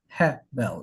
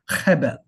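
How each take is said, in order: First: The first sound is soft, without throat friction. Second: The first sound is guttural, from the throat. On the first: The speaker calls it wrong. "So it's not Hebel" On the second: The speaker calls it right. "It's a little guttural piece"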